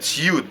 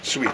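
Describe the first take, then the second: First: It is said like 'suit', with an 'oo' vowel. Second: It is said like 'sweet', with an 'ee' vowel. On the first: The speaker calls it wrong. "I pronounced this word wrongly. I said suit" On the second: The speaker calls it right. "it's said sweet"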